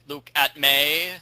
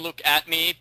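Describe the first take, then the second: First: The last syllable rhymes with 'day'. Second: The last syllable rhymes with 'see'. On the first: This is how someone else said the name. The speaker calls it wrong. "she was pronouncing it Luke at May" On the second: The name is a pun on 'look at me'. The speaker calls it right. "I call him Luke at me because that's the pun. Look at me"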